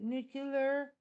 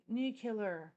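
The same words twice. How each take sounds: First: Nuclear as "nuke-ler"; one pronunciation offered. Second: Nuclear as "nu-kill-er"; alternative pronunciation. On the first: Streamer quizzing chat on pronunciation, nuclear as "nuke-ler". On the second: Streamer offering chat the alternative, nuclear as "nu-kill-er". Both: Shown as a demonstration. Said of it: "Or is it nu".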